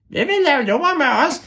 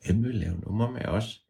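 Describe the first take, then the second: First: Very high, squeaky voice; high ævle bævle voice. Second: Plain soft voice; quiet. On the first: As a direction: squeak like the mystery voice. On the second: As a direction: ask it softly to yourself. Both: Shown as a demonstration.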